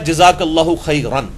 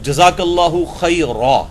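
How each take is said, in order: First: The last word ends with an 'n' sound. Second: The last word ends with a long 'a'. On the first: The phrase is read without stopping at the end. The speaker calls it wrong. "वक्त किए बगैर ... वो गलत होगा" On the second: The reader stops at the end of the phrase. The speaker calls it right. "वक्फ करना जरूरी होता है"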